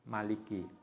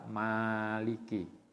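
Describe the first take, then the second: First: The first vowel is kept short. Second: The first vowel is held long. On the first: "ma-nya pendek" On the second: "ma-nya panjang"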